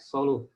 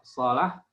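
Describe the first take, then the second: First: The vowel after the L is a 'u'. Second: The vowel after the L is an 'a'. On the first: "ataupun domah" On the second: "lam pada kata salaha itu boleh dibaca dengan fathah"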